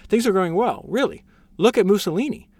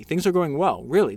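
First: Higher, mock-cheery minister; higher, mocking cheer; mock upbeat reassurance. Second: Said in the usual way. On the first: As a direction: toss it off with teasing cheer. Rereads minister's quote, mocking.

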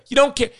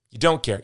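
First: Ranting accusation. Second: Said in the usual way. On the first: Real, not acted. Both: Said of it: "I'm sorry I'm ranting".

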